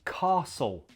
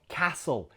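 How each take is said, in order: First: It has a southern British vowel. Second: It has a northern British vowel. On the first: "He's playing a southerner ... he sticks to saying castle" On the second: "not castle"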